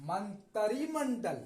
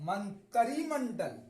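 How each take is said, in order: No difference in how they are said.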